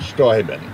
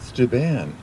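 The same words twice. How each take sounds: First: The name is pronounced the German way. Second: The name is pronounced the French way. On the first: "as a, a German, uh, it's Friedrich Wilhelm Baron von Steuben" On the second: "because he came with the French, uh, he was called Steuben"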